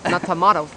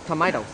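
First: "tomatoes" said British-style as tuh-MAH-tohz; "tomatoes" with MAH as the stressed syllable; tomahto pronunciation. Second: "tomatoes" said American-style as tuh-MAY-tohz; "tomatoes" with MAY as the stressed syllable; tomayto pronunciation. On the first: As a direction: say "tomatoes" with a broad AH in the middle. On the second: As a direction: say "tomatoes" with AY in the middle. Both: Shown as a demonstration.

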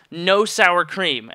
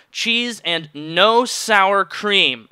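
First: "no sour cream" slowed right down, "no" stressed; slow emphatic no. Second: Each word spelled out slowly, stress on "no"; "no sour cream" drawn out word by word; slow emphatic order. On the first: Customer ordering his burrito, slow and firm. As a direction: lean on "no". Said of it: "I said it more loudly". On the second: Customer spelling out his order very slowly to the server. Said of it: "I was very, very clear". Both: Retold or imitated.

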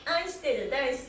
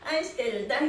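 The two takes are said the same way.

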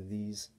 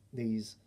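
No difference in how they are said.

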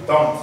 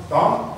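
First: "don't" with a clear last T; released final T. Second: "don't" ending on the N; silent final T. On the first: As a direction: finish "don't" on an audible T. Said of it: "de dire don't". (« don't » avec le T final prononcé) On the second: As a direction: swallow the T of "don't". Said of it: "vous n'entendez pas le T". (« don't » sans T audible) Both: Shown as a demonstration.

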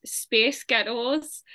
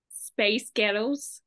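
First: Slow American accent demo. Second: Slow, drawn-out Scottish-sounding demo. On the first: Showing an accent trick, slowly in an American accent. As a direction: say "space ghettos" slowly, American style. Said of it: "in American accent, if you say". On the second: Showing the trick's result, slowly with a Scottish sound. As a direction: stretch "space ghettos" until it sounds Scottish. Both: Shown as a demonstration.

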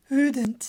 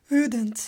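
The two takes are said the same way.

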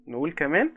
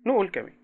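First: كمان stretched upward; rising prompt. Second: نقول pitched high, then falling on كمان; falling prompt. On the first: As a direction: coax a repeat, rising on كمان. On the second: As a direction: answer yourself with a fall. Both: Shown as a demonstration.

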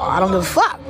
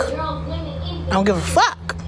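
First: Said in the usual way. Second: High, slow, softer mocking drawl; sing-song dismissal. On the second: Real, not acted. Streamer brushes off haters in a slow high sing-song. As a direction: draw it out like you truly don't care.

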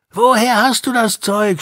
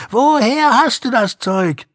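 First: Higher, louder gang shout retold by Joey; shouted demand. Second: Even higher, louder repeat of the gang shout; shouted demand. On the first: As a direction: yell it as the thugs did. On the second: Retold or imitated. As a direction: yell it once more, harder. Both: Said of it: "schrien sie".

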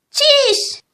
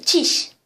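First: ÇİŞ pitched high and drawn out; high, emphatic contradiction on ÇİŞ; insistent ÇİŞ. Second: Said in the usual way. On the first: Acted. Insists louder on the same word.

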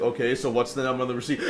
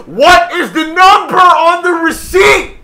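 First: Said in the usual way. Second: Slow, very high, very loud demand; full shout. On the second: Retold or imitated. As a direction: yell each word over a shouting customer. Shouts back over yelling customer.

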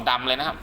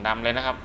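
Both takes have the same delivery.

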